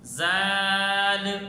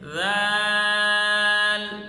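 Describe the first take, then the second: First: The vowel is short and the consonants hard. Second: The vowel is long and the consonants soft. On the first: The speaker calls it wrong. "राल को सख्त करके पढ़ें, सीटी की आवाज़ न निकालें, आखिर में लाम को हिलाकर पढ़ें, मद न करें" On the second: The speaker calls it right. "राल को नरम करके ... और मद करके पढ़ें"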